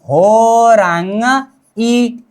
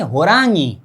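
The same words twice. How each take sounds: First: होरांग ई broken in two with a pause; wrong split syllables. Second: होरांगी as one smooth word, falling at the end; correct horangi. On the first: Teacher mocking the students' broken होरांग ई. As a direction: drag out होरांग, then a separate ई. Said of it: "ऐसा नहीं करना है". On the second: Teacher giving students the correct होरांगी. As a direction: say होरांगी joined, no break. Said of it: "होरांग ई नहीं". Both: Shown as a demonstration.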